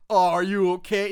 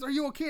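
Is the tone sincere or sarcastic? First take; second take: sarcastic; sincere. First: It is said in a mocking, sarcastic tone. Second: It is said in a sincere, concerned tone.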